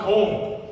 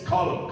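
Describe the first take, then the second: First: The name is said in an Americanized way. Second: The name is said in the Irish way. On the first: The speaker calls it wrong. "That is not the way you say it" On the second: The speaker calls it right. "he knows how to pronounce his own name"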